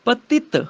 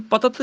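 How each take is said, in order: First: ਪਤਿਤ higher, as pa-tit; short i shown. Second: ਪਤਤ as pa-tat, no i; wrong vowel shown. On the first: Teacher correcting students, ਪਤਿਤ as patit. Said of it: "ਤੱਤੇ ਨੂੰ ਸਿਹਾਰੀ ਲੱਗੀ ਹੈ". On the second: Teacher showing what not to say, ਪਤਤ as patat. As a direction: keep a short a before final t in ਪਤਤ. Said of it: "ਇਹਨੂੰ ਪਤਤ ਨਹੀਂ ਕਹਿਣਾ ਹੈਗਾ". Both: Shown as a demonstration.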